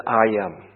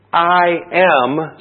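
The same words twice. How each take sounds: First: Said in the usual way. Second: I am punched louder and higher; I am, both words stressed. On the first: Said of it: "there's two words that are emphasized". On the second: Shown as a demonstration. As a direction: hit I am hard, with authority. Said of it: "same words emphasized in the Greek text".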